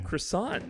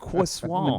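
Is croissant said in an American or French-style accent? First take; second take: American; French. First: Croissant is said in a plain American accent. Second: Croissant is said in a French-style accent. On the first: "I got the American accent there" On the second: "not a qu- quois-"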